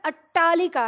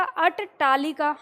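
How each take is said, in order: First: अट्टालिका with one held doubled ट as in खट्टा; correct pronunciation. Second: अट्टालिका slow with the double ट pulled apart, अट-टालिका; over-pronounce both ट sounds in अट्टालिका, drawn out; wrong pronunciation. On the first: Teacher models the right अट्टालिका for students, clear and firm. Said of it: "जैसे हम खट्टा बोलते हैं ना". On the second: Teacher demonstrates the wrong अट्टालिका to the class, slowly. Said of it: "इस ट का पूरा उच्चारण करेंगे तो". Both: Shown as a demonstration.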